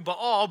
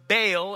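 First: The name is said with a Hebrew pronunciation. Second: The name is said with the common English pronunciation. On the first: "probably the more correct way to pronounce that in the Hebrew" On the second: "most of us probably know Baal as how we pronounced this name"

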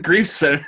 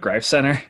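First: The name is said like the word 'grief'. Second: The name is said with the vowel of 'wife'. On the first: The speaker calls it wrong. "I thought it was the Greif Center this whole time" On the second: The speaker calls it right. "Are you telling me it's pronounced the Greif Center?"

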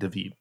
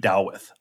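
First: The name ends with a plain 'd' sound. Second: The name ends with a soft 'th' sound. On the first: This is the modern pronunciation. The speaker calls it right. "I have a King David" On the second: This is the old classical pronunciation. The speaker calls it wrong. "If you follow the old classical, it should be Dawith"

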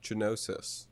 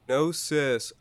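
First: The word begins with a G sound. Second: The word begins with an N sound. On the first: The speaker calls it wrong. "I've been pronouncing it Genosis" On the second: The speaker calls it right. "the G was silent"

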